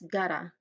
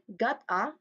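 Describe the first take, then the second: First: The two words are blended into one. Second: The two words are said separately. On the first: "we usually link words together" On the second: "like we say each word individually"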